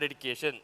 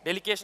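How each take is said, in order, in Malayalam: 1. രണ്ടാമത്തെ വ്യഞ്ജനം D ശബ്ദമാണ്. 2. രണ്ടാമത്തെ വ്യഞ്ജനം L ശബ്ദമാണ്.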